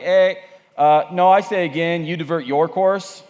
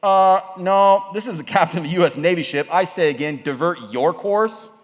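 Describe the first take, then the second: First: Lightly put-on Canadian radio operator; insistent Canadian-accented reply, slower at the end. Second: Lightly voiced captain on the radio; firm radio order, slowing at the end; a hint of military insistence; American navy captain. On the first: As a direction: push back in a mild Canadian accent. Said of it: "The Canadian comes back and he's like". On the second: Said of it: "The Americans come back and they say".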